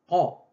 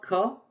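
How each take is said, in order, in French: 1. La consonne est bloquée au fond de la gorge. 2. La consonne est un son k ordinaire. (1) "c'est plutôt qa" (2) "Ce n'est pas ka, tel que je l'ai transcrite"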